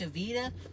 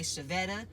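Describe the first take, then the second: First: The second vowel is a long 'ee' sound. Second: The second vowel is a short 'eh' sound. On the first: The speaker calls it right. "my mother's name is Shavita" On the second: The speaker calls it wrong. "they don't say the E, they say eh"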